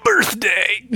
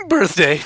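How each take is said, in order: First: High, loud, rising birthday cry; excited announcement. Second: Loud, laughing "Birthday" said again; laughing repeat. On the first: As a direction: sing out the news with a squeal. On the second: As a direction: laugh through the word. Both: Pretend.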